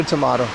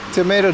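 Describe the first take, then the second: First: "tomato" with an open AH in the middle; British-style tomato. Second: "tomato" with a long AY in the middle; American-style tomato. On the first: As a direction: say "tomato" as tuh-MAH-to. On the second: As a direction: say "tomato" as tuh-MAY-to. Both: Shown as a demonstration. Set phrase, two ways to say it.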